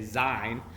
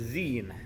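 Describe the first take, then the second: First: The word does not rhyme with magazine. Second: The word rhymes with magazine. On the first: The speaker calls it wrong. "I keep wanting to say zine" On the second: The speaker calls it right. "it's a zine, like magazine"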